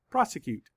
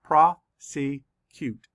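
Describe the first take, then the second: First: Said in the usual way. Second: Slow, each syllable pulled apart. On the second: Shown as a demonstration. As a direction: sound out each syllable slowly. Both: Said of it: "Let's count the syllables".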